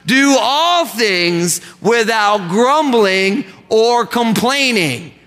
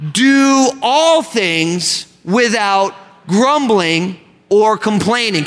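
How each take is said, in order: First: Slower, stronger recital with all stressed; urging the church to say it better; slow group recitation. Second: Slow, each word spaced out, stress on all; slow group recitation. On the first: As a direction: say it again with more conviction, slowly. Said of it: "Come on, you can do it better than that". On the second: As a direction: recite it slowly with the congregation. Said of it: "Let's say that together as a church". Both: Shown as a demonstration.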